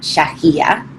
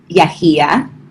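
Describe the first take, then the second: First: The name is said with the Argentine pronunciation. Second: The name is said without the Argentine pronunciation.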